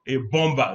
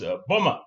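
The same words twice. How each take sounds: First: The B in bomber is pronounced. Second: The B in bomber is silent. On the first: The speaker calls it wrong. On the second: The speaker calls it right. "the B is also silent"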